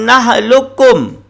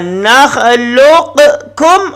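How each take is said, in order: First: The Q merges into a doubled K. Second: The Q is pronounced separately before the K.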